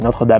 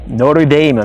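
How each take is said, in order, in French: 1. Il est prononcé à la française. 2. Il est prononcé à l'américaine, comme en anglais américain. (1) "mais bon c'est Notre-Dame" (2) "les Américains prononcent Notre Dame"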